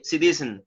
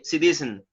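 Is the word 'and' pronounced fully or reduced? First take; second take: reduced; reduced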